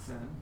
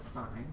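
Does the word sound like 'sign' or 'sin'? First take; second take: sin; sign. First: The word rhymes with 'tin'. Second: The word rhymes with 'line'. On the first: The speaker calls it wrong. "not sin" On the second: The speaker calls it right. "we pronounce this as sine"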